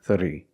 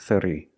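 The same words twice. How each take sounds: No difference in how they are said.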